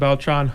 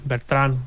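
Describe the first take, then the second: First: The name is said with an English accent. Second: The name is said with a Spanish accent.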